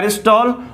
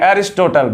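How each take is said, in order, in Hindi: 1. बीच की 't' ध्वनि मौन रहती है। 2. बीच की 't' ध्वनि साफ़ बोली जाती है। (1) "ये जो टी है वो साइलेंट रहता है" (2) "बिल्कुल गलत है।"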